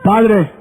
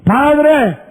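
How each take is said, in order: First: Humble son. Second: Entitled son. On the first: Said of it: "qué dijo el pródigo". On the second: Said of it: "presto la parábola otra vez". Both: Acted.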